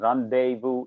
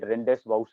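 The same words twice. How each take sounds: First: It is said the French way. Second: It is read as the English spelling suggests. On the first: The speaker calls it right. "rendezvous is the correct pronunciation" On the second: The speaker calls it wrong. "The first time I read it, I read it rendezvous"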